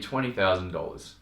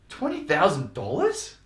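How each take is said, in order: First: It is said in a calm, matter-of-fact tone. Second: It is said in a concerned, alarmed tone. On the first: The price is simply being stated. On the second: The price seems unreasonable.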